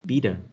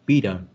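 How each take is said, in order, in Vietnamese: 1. Chữ t ở giữa nghe như âm d. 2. Chữ t ở giữa nghe như âm d.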